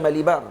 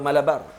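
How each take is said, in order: First: The second syllable has an ee sound. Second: The second syllable has an ah sound. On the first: "Ramai orang baca Malibar" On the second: "atau Malabar"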